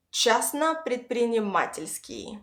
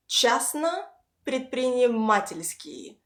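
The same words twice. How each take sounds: First: Частно предпринимательский run on with two stresses; pieced together. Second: Частно, pause, предпринимательский, each stressed on «а»; words said separately. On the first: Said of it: "piece them together". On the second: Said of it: "Practice these two words separately". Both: Shown as a demonstration.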